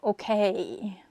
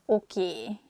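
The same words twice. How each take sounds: First: The word ends in an AY glide. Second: The word ends in a pure E vowel. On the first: "instead of" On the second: "we just say a sound E at the end"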